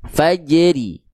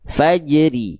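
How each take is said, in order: The two takes are said the same way.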